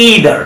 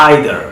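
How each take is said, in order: First: "either" as "EE-ther"; long "ee" opening "either"; American "ee" in "either"; American pronunciation. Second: "Either" as "EYE-ther", low; "eye" vowel opening "Either"; British "eye" in "Either"; British pronunciation. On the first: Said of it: "কীভাবে আমেরিকানরা sound করে". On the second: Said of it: "কীভাবে ব্রিটিশে sound করে". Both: Shown as a demonstration.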